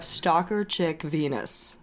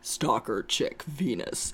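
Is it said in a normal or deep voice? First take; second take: normal; deep. First: It is said in her normal voice. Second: It is said in a put-on deep voice.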